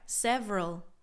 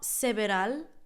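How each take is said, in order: First: The word is squeezed into two syllables. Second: The word is said with three full syllables. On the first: The speaker calls it right. "It's almost like it just has two syllables" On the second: The speaker calls it wrong. "It's not several, because that just sounds super Spanglish"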